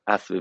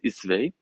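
First: The first vowel is an 'a' sound. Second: The first vowel is an 'i' sound. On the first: The speaker calls it wrong. "it's not asve v'samim" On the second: The speaker calls it right. "it's isve"

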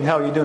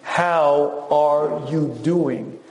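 First: It sounds like a casual passing greeting. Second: It sounds like a serious, probing question.

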